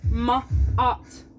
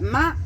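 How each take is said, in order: First: The vowel sounds like the one in 'art'. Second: The vowel sounds like the one in 'mat'. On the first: "just like da art, the ma and the da" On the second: "You can say it like Matt, like a boy's name"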